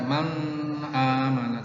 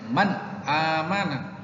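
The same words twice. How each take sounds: First: The n runs straight into the next vowel. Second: The n is clear, apart from the next vowel. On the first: The speaker calls it wrong. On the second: The speaker calls it right. "tapi man amana ... harus dibaca jelas"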